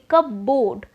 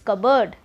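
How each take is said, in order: First: It sounds like two words, cup and board. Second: It sounds like one blended word. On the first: It sounds like a cup and a board. The speaker calls it wrong. "what would be coming in your mind? A cup and a board" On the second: It means the piece of furniture. The speaker calls it right. "if I pronounce it in a right way"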